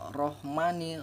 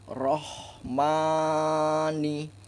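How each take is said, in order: First: The h is swallowed and barely heard. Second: The h is heard with flowing breath. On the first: The speaker calls it wrong. "Jangan dibaca rohmani ... seolah-olah huruf H ini terseret, tidak dibaca" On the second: The speaker calls it right. "mengalirnya napas ketika mengucapkan hurufnya"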